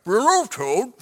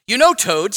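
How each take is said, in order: First: Mumbled as if through food; mouth full. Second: Said in the usual way. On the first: A narrator's reading. Frog talking to Toad while eating cookies, mouth full. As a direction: pretend to talk round a big bite. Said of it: "said Frog with his mouth full".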